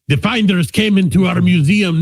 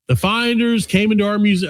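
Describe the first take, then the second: First: It is said in a put-on Russian accent. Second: It is said in his normal accent.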